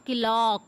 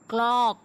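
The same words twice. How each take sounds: First: "clock" as two syllables, ki-lock; wrong pronunciation. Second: "clock" as one syllable, k joined to l; correct pronunciation. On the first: Teacher rejecting a mistake, "clock" said as ki-lock. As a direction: slip an i between k and l in "clock". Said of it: "It's not clock". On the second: Teacher giving the correction, one-syllable "clock". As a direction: say "clock" crisply with no vowel after k. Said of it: "it's clock". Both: Shown as a demonstration.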